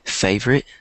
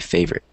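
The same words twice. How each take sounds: First: It is said with a British accent. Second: It is said with an American accent. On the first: "in British English, you might say" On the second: "in American English, you would say"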